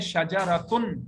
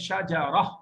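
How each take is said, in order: First: The word ends with a 'tun' sound. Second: The word ends with a soft 'h' sound. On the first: "अब देखें ये लफ्ज है शजरतुन" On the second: "जब गोलता को हम साइलेंट करते हैं, इसके ऊपर रुकते हैं"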